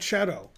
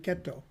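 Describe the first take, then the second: First: The syllable begins with a soft CH sound. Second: The syllable begins with a hard K sound. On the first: The speaker calls it wrong. "Not cetto. Terrible" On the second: The speaker calls it right. "Fian and then ketto"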